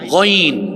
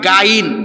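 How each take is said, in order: First: The first sound is heavy and thick. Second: The first sound is light and thin. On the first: The speaker calls it right. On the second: The speaker calls it wrong. "যেমন অনেকে বলে আইন গাইন, এটা গাইন না"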